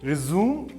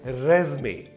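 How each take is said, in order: First: The word ends with an 'oom' sound. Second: The word ends with an 'ay' sound. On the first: It means to continue something. "एक होता है रिज्यूम" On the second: It means a CV. "और दूसरा होता है रेज्मे"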